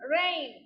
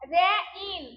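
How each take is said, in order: First: The word is said as one smooth syllable. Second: The word is split into two separate parts. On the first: The speaker calls it right. "তাহলে সঠিক কোনটা?" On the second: The speaker calls it wrong. "কিন্তু রে ইন কি সঠিক উচ্চারণ? No"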